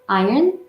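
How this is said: The R sound is clearly pronounced. "One is in American, okay, that's spelled with the R"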